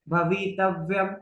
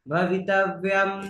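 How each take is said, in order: First: The vowel in 'vi' is drawn out long. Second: The vowel in 'vi' is kept short. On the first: The speaker calls it wrong. "कई बार भवितव्य वैसा पढ़ते हैं" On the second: The speaker calls it right. "ह्रस्व बोल के थोड़ा सा बोल के छोड़ देना है"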